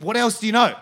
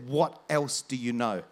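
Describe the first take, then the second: First: Loud, raised-pitch outburst; retold insistent demand. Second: Low, slow, weighted question; lowered voice, drawing out each word; retold intense demand. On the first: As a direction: imitate a desperate man demanding an answer. Retold man repeats his demand insistently. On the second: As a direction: imitate a desperate man, held in and deliberate. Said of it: "he was nearly full of tears".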